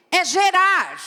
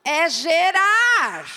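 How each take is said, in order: First: "É gerar" called out loud and high; emphatic declaration. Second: "É gerar" drawn out very slowly, each syllable weighted; slow emphatic repeat. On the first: Preacher exclaims "É gerar" to the congregation, loud. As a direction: proclaim "É gerar" with force. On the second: Preacher repeats "É gerar" for a listener who missed it, slow and deliberate. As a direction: spell out "É gerar" slowly so she understands. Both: Real, not acted. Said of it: "Ah, você não entendeu".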